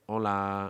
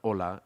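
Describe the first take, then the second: First: It is flat and nasal with a trailing tail. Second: It is flat and ends abruptly.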